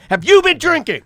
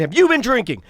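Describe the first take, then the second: First: Much higher, louder repeated demand; retold yelling. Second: High, pointed question; retold angry demand. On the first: Repeating the question to the driver, retold angry yell. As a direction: re-enact yelling the question, escalating. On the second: Asking the driver about drinking, retold angry demand. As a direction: re-enact a first insistent accusation. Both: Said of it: "And I'm yelling".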